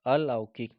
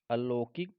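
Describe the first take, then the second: First: अलौकिक with au, said louder; अलौकिक said as alaukik, firmly; right form. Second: अलौकिक with an o vowel, rising; अलौकिक said as alokik; wrong form. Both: Shown as a demonstration.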